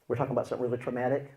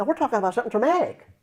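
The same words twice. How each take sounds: First: Said in the usual way. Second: Higher, fast, insistent; emphatic retelling. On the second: Retold or imitated. Counselor to person dozing off mid-session, high and emphatic. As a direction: pitch it up as if to rouse a dozer.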